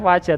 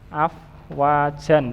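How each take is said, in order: First: The word ends on a vowel without n. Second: The word ends with a final n sound. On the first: This is how it is read when stopping. "Bacanya afwaja" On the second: This is how it is written. "Tulisannya ya afwajan sama"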